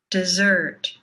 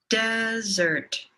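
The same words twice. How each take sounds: First: "dessert" with a long, held "SSERT"; second-syllable stress. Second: "desert" with a long, held "DES"; first-syllable stress. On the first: Teacher leading repeat-after-me, long second-syllable stress on "dessert". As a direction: stretch the last syllable of "dessert". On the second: Teacher leading repeat-after-me, long first-syllable stress on "desert". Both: Shown as a demonstration. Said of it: "say these words with me".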